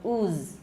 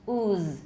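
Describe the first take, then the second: First: The final consonant is voiced in its first half. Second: The same.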